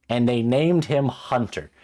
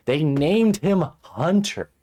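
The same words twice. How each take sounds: First: Loud, higher, drawn-out complaint; appalled disbelief. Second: Very loud, high, drawn-out disbelief; escalating outrage. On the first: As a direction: land the name loudly and slowly, appalled. Appalled at the character's name. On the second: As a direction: cry it out slowly, utterly appalled. Repeats name in mounting outrage. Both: Real, not acted.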